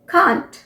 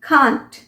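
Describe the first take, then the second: Both takes have the same delivery.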